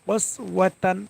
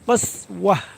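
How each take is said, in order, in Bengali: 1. শব্দটি একটি নাসিক্য tan ধ্বনি দিয়ে শেষ হয়। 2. শব্দটি একটি মৃদু h ধ্বনি দিয়ে শেষ হয়। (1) "তা দুই জবর তান তানমিনের কায়দা" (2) "যদি আমরা এখানে অক্ষ করি তাহলে থা সাকিন হয়ে হা হয়ে যাবে"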